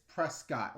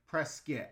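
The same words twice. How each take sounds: First: Said in the usual way. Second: Prescott said like "PRESS-kit"; local pronunciation. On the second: Shown as a demonstration. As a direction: reduce the end of Prescott to a quick "kit". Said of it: "as the natives call it".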